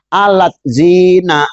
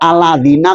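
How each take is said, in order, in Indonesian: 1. Bunyi 't' memecah kata ini menjadi dua. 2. Kata ini diucapkan utuh, tanpa jeda 't'. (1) "dibaca alat zina tuh" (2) "Aladi kok aladina"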